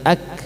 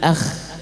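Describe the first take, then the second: First: The k is stopped, then released with light breath. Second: The k turns into a raspy friction sound. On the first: The speaker calls it right. "baru ada hembusan nafasnya" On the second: The speaker calls it wrong.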